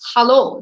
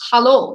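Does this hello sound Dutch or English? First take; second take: Dutch; Dutch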